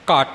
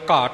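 First: The final consonant is doubled and held longer. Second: The final consonant is short, not doubled. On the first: The speaker calls it wrong. "ਘੱਟ ਨਹੀਂ ਬੋਲਣਾ" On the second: The speaker calls it right. "ਦੋ ਵਾਰ ਘਾਟ ਲਫਜ਼ ਇਸ ਪਦ ਅੰਦਰ ਆਇਆ ਹੈ"

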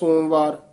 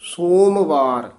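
First: The syllables run together and the m is swallowed. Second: The syllables are slightly separated with a clear m. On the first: The speaker calls it wrong. "ਕਈ ਵਾਰ ਅਸੀਂ ਪੜ੍ਹ ਜਾਂਦੇ ਸੋਮਵਾਰ, ਮੰਮਾ ਰਹੀ ਜਾਂਦਾ ਵਿੱਚ" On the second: The speaker calls it right. "ਥੋੜਾ ਜਿਹਾ ਨਖੇਰ ਕੇ ਪੜ੍ਹਨਾ ... ਸੋਮਵਾਰ ਇਉਂ ਬੋਲਣਾ"

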